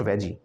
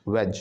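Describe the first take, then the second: First: "veggie" with a final ee; wrong syllable break. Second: "veg" as one syllable, no ee; syllable break at G. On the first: Teacher shows the wrong split, veggie with ee. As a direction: end "veggie" on an audible ee. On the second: Teacher gives the right split, veg alone. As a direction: cut "veg" off at the j sound. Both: Shown as a demonstration. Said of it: "not veggie, it's veg".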